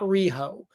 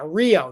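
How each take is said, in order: First: An h sound separates the two vowels. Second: The two vowels run together with no h sound. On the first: The speaker calls it wrong. "not Riho" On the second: The speaker calls it right. "It's Rio, like the like the movie Rio"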